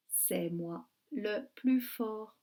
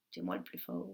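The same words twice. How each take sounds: First: Said in the usual way. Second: Very low growly boast as the wolf; teacher doing a deep wolf voice. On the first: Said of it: "Et c'est le loup qui dit ça". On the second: Acted. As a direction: boast like the big bad wolf. Wolf voice, teacher reading title.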